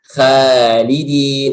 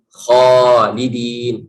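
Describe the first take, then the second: First: The first syllable is light and thin. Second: The first syllable is heavy and thick. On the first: The speaker calls it wrong. "Nah, salah" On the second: The speaker calls it right. "Harus bacanya khalidin"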